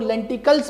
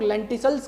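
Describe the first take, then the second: First: लेंटिकल्स with a K sound in the middle; hard C pronunciation. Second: लेंटिसल्स with an S sound in the middle; soft C pronunciation. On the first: Teacher giving students the alternative reading, hard C pronunciation. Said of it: "कुछ लोग लेंटिकल्स पढ़ते हैं". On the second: Teacher naming a topic for students, soft C pronunciation. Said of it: "या कुछ लोग लेंटिकल्स पढ़ते हैं". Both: Shown as a demonstration.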